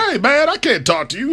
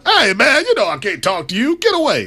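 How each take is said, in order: First: Higher mock Magic voice; a light take on Magic Johnson; Magic Johnson impression. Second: Magic Johnson impression. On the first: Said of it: "I'm not sure that's what Magic Johnson sounds like". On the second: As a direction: push the Magic impression big and high. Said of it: "Do it one more time for me".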